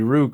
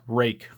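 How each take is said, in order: First: The name rhymes with book. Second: The name rhymes with make. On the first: This is how an English reader would guess it. The speaker calls it wrong. "in English it would be Rook" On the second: This is the name's real pronunciation. The speaker calls it right. "It's rake"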